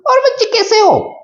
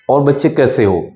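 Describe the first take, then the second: First: It is said in a higher, shriller pitch. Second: It is said at the speaker's normal pitch.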